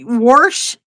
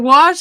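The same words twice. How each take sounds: First: It is said with an added r sound. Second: It is said without any r sound. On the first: It reflects a regional dialect. "is that just a way you say it, like wash" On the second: It is the standard way to say it. "instead of wash"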